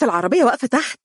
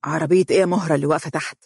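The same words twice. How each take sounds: First: Higher, eager, rising on العربية; happy, excited. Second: Puzzled surprise. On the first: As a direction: urge him downstairs with delight. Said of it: "وهي تقول بسعادة". (بحماس وفرح، العربية بنبرة صاعدة) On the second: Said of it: "ينظر إليها بدهشة وقال". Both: A narrator's reading.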